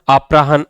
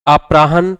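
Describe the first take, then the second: No difference in how they are said.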